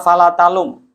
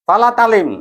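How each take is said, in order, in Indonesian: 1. Kata kedua berakhir dengan vokal 'u'. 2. Kata kedua berakhir dengan vokal 'i'. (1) "Yang betul adalah" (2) "itu yang saya dengar ya"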